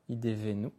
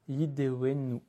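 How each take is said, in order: First: The middle consonant is a v sound. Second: The middle consonant is a w sound. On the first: The word relates to giving. "l'imaginer soit avec un Vet" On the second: The word relates to suffering. "l'imaginer avec un Vav ou un Waw"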